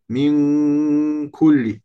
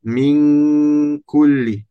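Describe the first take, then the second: No difference in how they are said.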